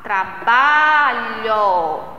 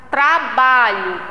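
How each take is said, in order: First: "Trabalho" very slowly, with a long drawn-out BA; stress on BA. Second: Said in the usual way. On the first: Shown as a demonstration. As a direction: stretch the middle syllable of "Trabalho". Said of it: "qual é a sílaba tônica nesta palavra?".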